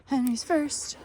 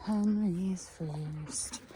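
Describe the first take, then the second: First: High sing-song. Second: Slow drawn out. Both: Acted. Letting the hens out.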